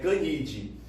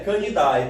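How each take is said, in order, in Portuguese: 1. O final é pronunciado como 'eh'. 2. O final é pronunciado como 'eye'. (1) "É Canidae" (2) "Não é Canidae"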